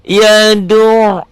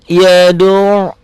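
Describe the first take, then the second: No difference in how they are said.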